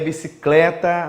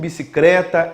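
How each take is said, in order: First: The second c is followed by an l sound. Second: The second c is followed by an r sound. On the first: This is the standard, educated norm. "no que se refere à norma culta" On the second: This is the popular, non-standard variety. "Ele pertence a uma variedade social"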